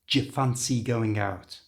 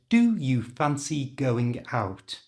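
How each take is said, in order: First: 'Do you' is squeezed into one short reduced sound. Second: 'Do you' is said with full, clear vowels. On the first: "In natural English, we always change the do and the you" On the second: "it wasn't pronounced like that"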